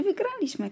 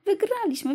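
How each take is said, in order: First: Put-on children cheering. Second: Much higher, louder victory shout; children yelling their win, high and loud. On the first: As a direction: squeal it with joy, pitched up. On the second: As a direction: shout it like a thrilled kid. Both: A narrator's reading. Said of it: "krzyczały dzieci".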